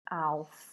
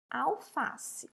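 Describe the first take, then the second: First: FA of Alface stretched very long; calling the word. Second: Said in the usual way. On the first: Shown as a demonstration. Teacher calls to find the stressed syllable, Alface with a long FA. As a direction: call out Alface, holding the middle FA. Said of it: "Vamos chamar?".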